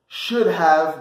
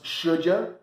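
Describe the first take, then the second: First: The word have is said in full. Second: Have is reduced to a short uh sound.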